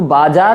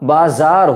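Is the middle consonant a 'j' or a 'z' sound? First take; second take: j; z. First: The middle consonant is a 'j' sound. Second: The middle consonant is a 'z' sound. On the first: The speaker calls it wrong. "बाजार नहीं होता" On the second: The speaker calls it right. "बाजार होता है"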